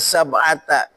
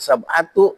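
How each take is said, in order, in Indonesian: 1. Kata ini diakhiri dengan vokal 'a'. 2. Kata ini diakhiri dengan vokal 'u'. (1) "Mesti dibaca sab'ata" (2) "nggak boleh domahkan. Sab'atu nggak boleh"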